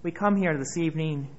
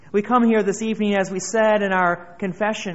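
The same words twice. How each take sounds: First: Said in the usual way. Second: Louder, faster preaching. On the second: Acted. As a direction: repeat it louder and quicker, building. Repeated opening, building intensity.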